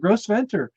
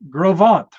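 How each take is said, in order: First: The name ends with an audible R sound. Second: The name ends with no R sound. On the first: The speaker calls it wrong. "that's what I said when I got there" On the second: The speaker calls it right. "No R in it at all"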